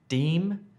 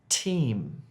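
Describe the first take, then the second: First: The word begins with a d sound. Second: The word begins with a t sound. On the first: The speaker calls it wrong. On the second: The speaker calls it right.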